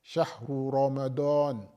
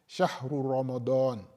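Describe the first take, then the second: The two takes are said the same way.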